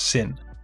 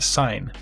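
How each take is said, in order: First: The vowel is short, like in 'tin'. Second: The vowel is long, like in 'line'. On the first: "or I guess it could also be pronounced as Sin" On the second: "let's kick things off with Sign"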